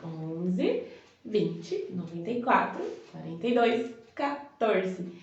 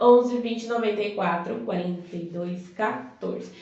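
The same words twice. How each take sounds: First: The number is said slowly, with pauses. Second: The number is said fast.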